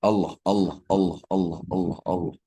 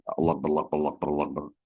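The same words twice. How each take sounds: First: Each Allah said fully and deliberately, fall on the end; mean every Allah, unhurried and felt; mindful zikir. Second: Allah rattled off too fast and slurred together; hasty mumbled chant of Allah; rushed zikir. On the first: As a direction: clear devoted chant of Allah. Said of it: "ketika kita melihat sesuatu". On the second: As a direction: gabble Allah with no thought, like a bad habit. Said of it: "terlalu cepat". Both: Shown as a demonstration.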